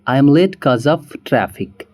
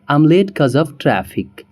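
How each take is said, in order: The two takes are said the same way.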